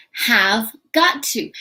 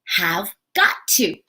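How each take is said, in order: First: "Have got to" said slowly and clearly; careful, slow "Have got to"; slow model of have got to. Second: Said in the usual way. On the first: Shown as a demonstration. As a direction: spell it out slowly for learners. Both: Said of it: "another strong modal".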